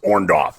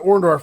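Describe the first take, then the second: First: The name is said without its R sounds. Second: The name is said with its R sounds.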